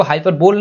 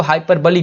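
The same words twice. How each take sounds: First: हाइपरबोल ending in a long "bol", no final ee; हाइपरबोल in three syllables, silent final e; spelling pronunciation. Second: हाइपरबोली with a short "buh" and a final "lee"; हाइपरबोली with the last e sounded as ee; standard pronunciation. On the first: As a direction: say हाइपरबोल as written, last syllable rhyming with "goal". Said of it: "इसको हाइपरबोल नहीं पढ़ते हैं". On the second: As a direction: say हाइपरबोली in four syllables, ending -bə-lee. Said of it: "इसको हाइपरबोली पढ़ते हैं". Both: Shown as a demonstration.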